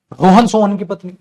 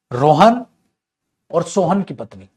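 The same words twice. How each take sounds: First: Rohan Sohan की पत्नी loud and run together; higher and louder, no break after Rohan; no comma pause. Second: Loud rising Rohan, a long break, then और सोहन की पत्नी; pause after Rohan. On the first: Teacher showing the wrong reading, run on without comma. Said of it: "ऐसे तो गलत हो जाएगा". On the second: Teacher saying a comma is needed, pause after Rohan. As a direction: leave Rohan hanging before और सोहन की पत्नी. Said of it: "coma लगाना पड़ेगा". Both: Shown as a demonstration.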